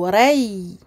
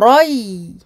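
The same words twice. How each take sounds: First: The heavy emphatic quality covers only the start. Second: The heavy emphatic quality covers the whole syllable. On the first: The speaker calls it wrong. "L'erreur fréquente est euh, de faire en fait l'emphase uniquement sur la première case" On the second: The speaker calls it right. "oublier d'emphatiser également la deuxième case"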